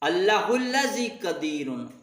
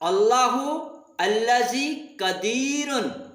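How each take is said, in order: First: The first two words run together smoothly. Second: The first two words are said separately.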